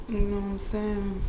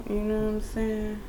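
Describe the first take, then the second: No difference in how they are said.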